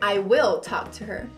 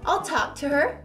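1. 'Will' é pronunciado por extenso, com ênfase. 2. 'Will' é contraído em I'll.

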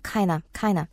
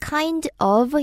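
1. 빠르게 발음해서 kinda처럼 붙어서 들립니다. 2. 두 단어 모두 완전하게, 따로 발음합니다. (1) "빠르게 얘기해서 kind of 이렇게 들리고요" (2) "원래는 kind of 이지만"

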